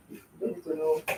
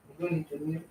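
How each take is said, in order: First: A private whispered aside. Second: Said in the usual way. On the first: Shown as a demonstration. Aunty brushing off the burger question, whispering to herself. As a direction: whisper "You don't need to know" to yourself.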